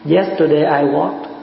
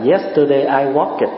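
First: The ending of walked is short and light. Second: The ending of walked is an added syllable. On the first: The speaker calls it right. "người ta đọc mà nó cái âm nó nhẹ thôi" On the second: The speaker calls it wrong. "cái gì cũng ịt hết á"

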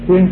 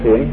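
First: The syllable is said with a level tone. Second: The syllable is said with a low, heavy tone. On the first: It means heaven or the natural. The speaker calls it right. "thiên trên chứ không phải" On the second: It means good or virtuous. The speaker calls it wrong. "không phải thiện trên nha"

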